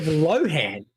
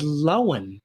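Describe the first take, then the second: First: The name has an h sound in the middle. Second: The name has no h sound in the middle. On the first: This is how most people say the name. The speaker calls it wrong. "as pretty much everyone's been saying it" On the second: This is how the owner of the name says it. The speaker calls it right. "Lindsay pronounced her surname as Lowen"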